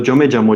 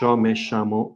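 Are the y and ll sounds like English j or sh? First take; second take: j; sh. First: The y and ll sound like English j. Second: The y and ll sound like English sh. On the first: "it's very similar to the pronunciation of uh, yo and llamo" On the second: "if I were from Argentina, I would say"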